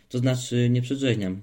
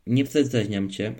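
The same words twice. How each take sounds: First: "przedrzeźniam" with full, clear hushing sounds; louder, correctly articulated "przedrzeźniam"; quick self-correction. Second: Put-on "przedrzeźniam" lisped childishly, its hushing sounds softened; slow, louder, small slip into a lisp on "przedrzeźniam"; mimicked mispronunciation. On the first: Boy corrects his slip to his friend, clearly articulated "przedrzeźniam". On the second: Boy slips into mimicking his friend, lisped "przedrzeźniam". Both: A narrator's reading. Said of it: "poprawił się szybko".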